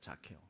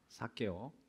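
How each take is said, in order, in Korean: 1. 이 이름은 영어식으로 발음해요. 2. 이 이름은 보통 한국식으로 발음해요. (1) "자케오라고 합니다" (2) "영어로 사케오라고도 할까요?"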